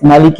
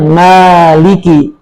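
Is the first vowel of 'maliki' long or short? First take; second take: short; long. First: The first vowel 'ma' is short. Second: The first vowel 'ma' is drawn out long. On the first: "bisa dibaca dengan mimnya pendek" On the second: "Atau dibaca panjang"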